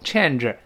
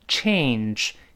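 First: The vowel is a short flat 'a' before n. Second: The vowel glides like 'ay' before the n. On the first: The speaker calls it wrong. "而不要读change angel，这都不对" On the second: The speaker calls it right. "就像改变change"

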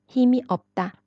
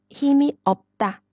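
No difference in how they are said.

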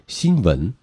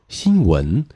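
First: The second syllable starts with a v-like sound. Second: The second syllable starts with a rounded-lip w sound. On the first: The speaker calls it wrong. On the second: The speaker calls it right.

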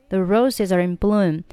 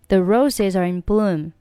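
No difference in how they are said.

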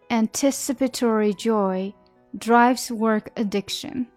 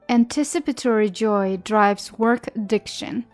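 First: The sentence is said at a normal pace. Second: The sentence is said at a faster pace.

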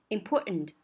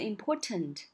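First: The t is swallowed and followed by a nasal. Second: The t is clearly released. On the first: "它会把那个important 那个t 给吞掉" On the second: "它就不会读成important"

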